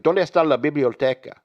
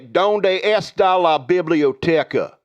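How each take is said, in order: First: It is spoken with a Spanish accent. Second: It is spoken with an American Southern accent. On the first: The speaker calls it right. "You go" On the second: The speaker calls it wrong. "you're from Virginia, you, say, you don't say"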